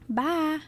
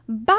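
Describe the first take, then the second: First: It is said softly and plainly. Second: It is said loudly and proudly.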